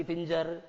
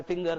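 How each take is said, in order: First: "फिंजर" के बीच में ग की जगह ज; गलत ज उच्चारण. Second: "फिंगर" के बीच में कठोर ग; सही ग उच्चारण. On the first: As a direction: finger को ज से "फिंजर" बोलें. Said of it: "फिंगर नहीं कि फिंजर". ("फिंजर" में ज की ध्वनि) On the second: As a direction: finger को ग से "फिंगर" बोलें. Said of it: "नहीं कि फिंजर". ("फिंगर" में ग की ध्वनि) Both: Shown as a demonstration.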